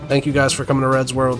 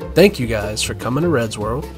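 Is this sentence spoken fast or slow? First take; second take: fast; slow. First: The sentence is spoken quickly and hurriedly. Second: The sentence is spoken slowly and calmly. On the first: The speaker calls it wrong. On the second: The speaker calls it right.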